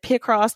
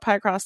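First: The first syllable sounds like 'pick'. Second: The first syllable sounds like 'pie'. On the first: "the people pronounce it Picross because it's picture and crossword" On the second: "I call it Picross. ... It reminds me of pi"

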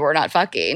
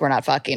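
First: It is said in a light, joking tone. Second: It is said in a flat, matter-of-fact tone. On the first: "I said it in like a joking way" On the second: "This that sounded pretty matter of fact"

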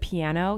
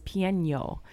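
First: The last syllable is a plain 'no' sound. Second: The last syllable has an 'ny' sound. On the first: The speaker calls it right. "Instead of piano" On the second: The speaker calls it wrong. "With an inya"

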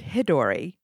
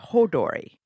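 First: The name begins with a 'hi' sound. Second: The name begins with a 'ho' sound. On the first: The speaker calls it wrong. "We have been pronouncing it Hidori" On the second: The speaker calls it right. "It is Hodori"

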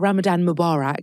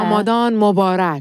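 First: Mubarak is pronounced in an English style. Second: Mubarak is pronounced in a Persian style. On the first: The speaker calls it wrong. "she's saying it the real like English way" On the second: The speaker calls it right. "In Iranian, you say Mubarak"

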